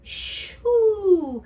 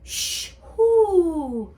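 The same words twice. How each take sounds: Both takes have the same delivery.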